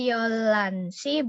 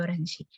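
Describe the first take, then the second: First: A clear l sound joins the syllables. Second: A flap between r and l, no h. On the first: The speaker calls it wrong. "Bukan Yolansi" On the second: The speaker calls it right. "tengah-tengah antara R sama L"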